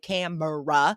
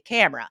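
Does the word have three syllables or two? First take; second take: three; two. First: The middle vowel is pronounced, giving three syllables. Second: The middle vowel is dropped, giving two syllables. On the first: The speaker calls it wrong. "we don't say camera" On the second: The speaker calls it right. "we drop that E. We say camera"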